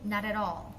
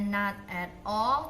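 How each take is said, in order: First: The words are linked into one flowing chunk. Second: The words are said separately, one by one. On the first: The speaker calls it right. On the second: The speaker calls it wrong.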